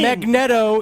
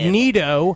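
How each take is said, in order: First: The name has an Italian-style pronunciation. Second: The name has a non-Italian pronunciation. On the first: "more of the uh, Italian pronunciation" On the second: "more of the douchebag pronunciation"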